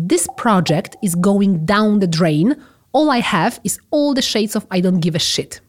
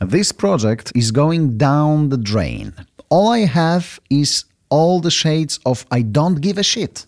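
First: Slow example sentence. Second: Slow careful repetition. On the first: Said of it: "możemy powiedzieć". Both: Shown as a demonstration.

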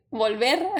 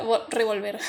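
First: Said in the usual way. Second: "revolver" said by mistake for volver; slip of the tongue. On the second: Real, not acted. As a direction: stumble into "revolver" before correcting. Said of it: "Voy a de-, volver". ("revolver" dicho por error, trabándose)

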